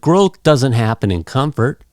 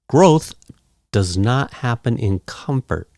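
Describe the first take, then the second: First: "Does not" is contracted into one word. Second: "Does not" is said as two full words.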